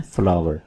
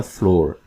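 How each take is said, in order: First: फ्लावर with "ow-er", like the bloom "flower"; correct pronunciation. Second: फ्लोर as a single long-"o" syllable; common mispronunciation. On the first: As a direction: pronounce फ्लावर in two syllables, FLA-wər. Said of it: "सही pronunciation है फ्लावर". (फ्लावर, "आवर" ध्वनि वाला सही उच्चारण) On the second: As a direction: pronounce फ्लोर like the "floor" of a room. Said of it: "आमतौर पर बोला जाता है फ्लोर". (फ्लोर, आमतौर पर बोला जाने वाला "ओ" वाला उच्चारण) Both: Shown as a demonstration.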